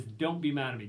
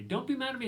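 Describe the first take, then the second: First: Said in the usual way. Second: "Don't be mad at me" pitched much higher as a pleading whine; whiny mock plea. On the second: Shown as a demonstration. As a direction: mimic a child begging to be let off.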